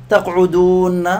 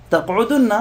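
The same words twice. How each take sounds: First: تقعدون slow, with a stretched ū before nn; long vowel form. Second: تقعدن with short u straight into double n; shortened vowel form. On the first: Teacher shows the original form, stretched ū in تقعدون. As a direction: draw out "تقعدون" as taqʿudūūnna. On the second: Teacher shows what it becomes, short u in تقعدن. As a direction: say "تقعدن" as taqʿudunna, higher. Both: Shown as a demonstration. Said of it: "تصير".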